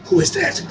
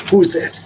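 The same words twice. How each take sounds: First: High dog-talk voice. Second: Said in the usual way. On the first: Real, not acted. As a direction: question shot up very high and soft. Asking dog, plain then high.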